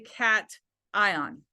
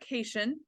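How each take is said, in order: First: The word does not rhyme with 'vacation'. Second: The word rhymes with 'vacation'. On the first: The speaker calls it right. "But in the context of chemistry, it is a cation" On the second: The speaker calls it wrong. "It is not a cation. I know that that's how we would pronounce it, like vacation"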